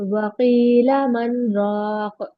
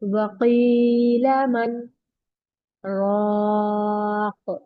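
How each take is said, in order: First: 'Man' runs straight into 'raq' without pause. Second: A brief pause comes between 'man' and 'raq'. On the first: The speaker calls it wrong. "इसको ऐसे नहीं पढ़ना, फौरन नहीं पढ़ना।" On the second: The speaker calls it right. "यहाँ पर मैंने स्टॉप किया लेकिन सांस नहीं लिया।"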